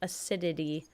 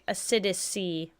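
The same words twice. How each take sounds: First: It is said without the extra 's' sound. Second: An extra 's' sound is added inside. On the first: The speaker calls it right. "It's acidity" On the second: The speaker calls it wrong. "I kept trying to add an extra C"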